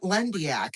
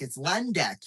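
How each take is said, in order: First: The name is said as Lendiak. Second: The name is said as Lendek. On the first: The speaker calls it wrong. "Not Lendiak" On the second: The speaker calls it right. "It's Lendek, you dummy"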